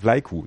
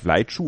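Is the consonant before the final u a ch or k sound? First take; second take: k; ch. First: The consonant before the final u is k. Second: The consonant before the final u is ch. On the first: The speaker calls it right. "Das C wird wie ein K ausgesprochen" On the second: The speaker calls it wrong. "vielleicht Vlaichu oder so. Nein"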